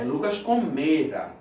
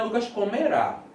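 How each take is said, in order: First: Comera stressed on the middle syllable, me; right stress. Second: Comerá stressed on the last syllable, rá; wrong stress. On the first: Teacher showing the right stress, comera stressed on the middle syllable. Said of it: "a sílaba tônica aqui, ó, paroxítona". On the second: Teacher showing the wrong stress, comerá with a stressed final syllable. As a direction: say comerá with the accent on the end. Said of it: "porque comerá é futuro". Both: Shown as a demonstration.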